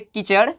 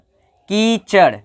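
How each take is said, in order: First: The first vowel is clipped short. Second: The first vowel is drawn out long.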